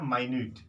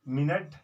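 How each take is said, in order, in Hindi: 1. यह 'my-newt' की तरह सुनाई देता है, दूसरे हिस्से पर ज़ोर है। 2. यह 'minnit' की तरह सुनाई देता है, पहले हिस्से पर ज़ोर है। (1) "और यह है माइन्यूट" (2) "इसका जब प्रोनाउंसिएशन करेंगे तो मिनट"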